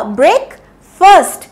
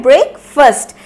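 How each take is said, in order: First: ब्रेकफास्ट said slowly as the mistaken version; wrong pronunciation. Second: ब्रेकफास्ट said quickly as one word, the right way; correct pronunciation. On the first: Teacher demos the learners' mistake, ब्रेकफास्ट said slowly. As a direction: demo the wrong ब्रेकफास्ट, drawn out. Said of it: "ना ही ब्रेकफास्ट होता है". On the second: Teacher gives the correct form, ब्रेकफास्ट said right. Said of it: "इसको हम लोग बोलते हैं". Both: Shown as a demonstration.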